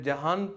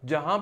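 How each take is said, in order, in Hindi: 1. इस शब्द का अंतिम n पूरा उच्चारित होता है। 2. इस शब्द में अंत में अनुनासिक स्वर है, n नहीं। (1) "अगर मैं जहान पूरा पढ़ूँ ना इसका वज़न ख़राब हो जाता" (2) "यूं करना पड़ेगा जहां पढ़ूँ फिर सही है"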